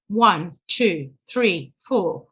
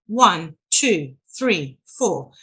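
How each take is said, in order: Both takes have the same delivery.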